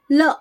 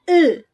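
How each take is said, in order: First: Said in the usual way. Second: इल as a loud "ull", ending on the l; higher, held "ull" for इल, no vowel after; held l sound. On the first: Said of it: "ल को हम जब pronounce करते हैं". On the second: Shown as a demonstration. Teacher contrasting letter sound with in-word इल, held "ull". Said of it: "तो उसको ल बोलते हैं".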